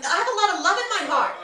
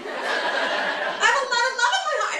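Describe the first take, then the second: First: Raised-pitch, quick insistence; passionate New Yorker. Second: High-pitched, strained declaration of love; mock yelling. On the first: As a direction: protest your love in a brisk rush. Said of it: "We're always yelling". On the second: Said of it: "always think I'm fucking yelling at them". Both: Shown as a demonstration.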